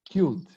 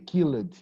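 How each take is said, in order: First: The ending is only a plain d sound. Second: The ending is pronounced as an extra syllable. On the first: The speaker calls it right. "we only pronounce the letter D" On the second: The speaker calls it wrong. "don't say killed"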